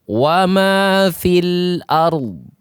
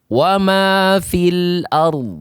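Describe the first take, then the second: The two takes are said the same way.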